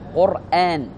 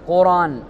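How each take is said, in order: First: A glottal stop is heard before the long vowel. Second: No glottal stop is heard before the long vowel. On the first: The word comes from a root meaning to recite or gather. "فيه همز" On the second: The word is taken as not derived from the hamzated root. "إذا كان القرآن غير مهموز وأن نطقه إنما قرآن"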